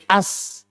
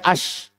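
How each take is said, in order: First: The word ends with an 's' sound. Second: The word ends with a 'sh' sound. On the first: The speaker calls it wrong. "Shin menjadi sin. Tidak boleh" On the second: The speaker calls it right. "Asalnya ash"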